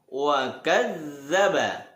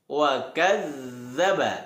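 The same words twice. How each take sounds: First: The middle consonant is a soft 'dh' sound. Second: The same.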